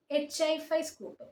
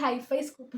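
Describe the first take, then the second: First: "എച്ച് ഐ ഫൈവ്" read as the separate letters H, I and the number five, then "സ്കൂപ്പ്"; spelled out letter by letter. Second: "ഹൈഫൈ സ്കൂപ്പ്" with "ഹൈഫൈ" run together as one word, hi-fi. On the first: Tutor reads the effect name off the screen, spelling "എച്ച് ഐ ഫൈവ്" letter by letter. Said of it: "എങ്ങനെ pronounce ചെയ്യേണ്ടതെന്ന് അറിയില്ല". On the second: Tutor gives his own way of saying it, "ഹൈഫൈ സ്കൂപ്പ്" as one word. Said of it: "ഞാൻ പറയുന്നത് ഹൈഫൈ സ്കൂപ്പ് എന്നാണ്". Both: Shown as a demonstration.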